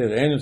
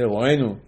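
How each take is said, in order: First: Re'enu with an "e" first vowel; re'enu variant. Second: Ro'enu with an "o" first vowel; ro'enu variant. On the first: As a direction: say re'enu, "eh" after the r. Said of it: "some people say re'enu". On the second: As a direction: say ro'enu, "oh" after the r. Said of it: "some people say ro'enu". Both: Shown as a demonstration.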